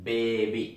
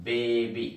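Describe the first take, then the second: The two takes are said the same way.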